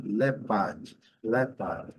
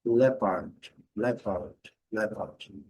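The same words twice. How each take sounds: First: British English "leopard" with silent R; British pronunciation. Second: "leopard" said the American way with a sounded R at the end; American English "leopard" with the R; American pronunciation. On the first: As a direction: drop the R in "leopard", stress the first syllable. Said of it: "letra R no inglês britânico não é pronunciada". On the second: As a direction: pronounce the R in "leopard", stress the first syllable. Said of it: "E no inglês americano". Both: Shown as a demonstration.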